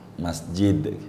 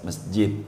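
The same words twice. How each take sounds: First: The final consonant is a clear d. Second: The final d becomes a different sound. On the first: The speaker calls it right. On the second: The speaker calls it wrong.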